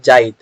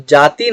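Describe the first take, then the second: First: जाइत with short i moved before the t; Nagpuri apinihiti. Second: Said in the usual way. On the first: Shown as a demonstration. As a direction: say जाइत, i gliding in before a final t. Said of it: "हम लोग पढ़ते हैं जाइत". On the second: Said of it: "जाति ना पढ़ करके".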